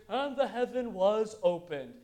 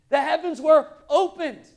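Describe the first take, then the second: First: Slow, measured scripture recital; drawn-out, routine verse reading; undramatic Bible reading. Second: Loud, high, awestruck proclamation; big dramatic verse delivery. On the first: Retold or imitated. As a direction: read it out evenly, as a familiar verse. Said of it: "we read that in our, in our English". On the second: Acted. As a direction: declare it as a tremendous event. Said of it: "Pretty dramatic event".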